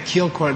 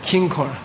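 First: The first syllable ends in an l sound. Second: The first syllable ends in an n sound. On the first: The speaker calls it wrong. "they don't know what the heck you're saying" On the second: The speaker calls it right. "Say Kinkor"

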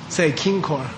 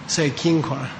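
The two takes are said the same way.

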